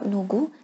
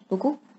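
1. Kata ini diawali dengan bunyi n yang jelas. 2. Kata ini diawali dengan bunyi seperti d. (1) "Boleh untuk cakap nugu" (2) "orang cakap dengar macam dugu"

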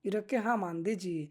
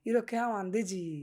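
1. ক্রিয়াপদটি এক সিলেবলে সংক্ষেপে বলা হয়: 'ham'। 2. ক্রিয়াপদটি এক সিলেবলে সংক্ষেপে বলা হয়: 'ham'।

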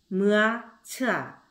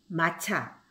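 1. 각 소리를 띄어서 따로 말해요. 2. 소리를 이어서 한 단어로 매끄럽게 말해요. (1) "띄어서 읽어주고" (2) "한꺼번에 읽어주고"

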